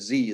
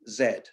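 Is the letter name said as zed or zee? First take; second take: zee; zed. First: The letter is said the American way, zee. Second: The letter is said the British way, zed.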